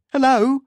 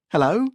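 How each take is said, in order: First: Loud, high, urgent hello; desperate call. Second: Forlorn, rising question. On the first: Anderson calling into the dead phone, loud and desperate. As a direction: call out hard for an answer. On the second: Anderson into the empty phone, forlorn. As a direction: call higher into a dead line. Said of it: "Anderson forlornly spoke into the empty phone". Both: A narrator's reading.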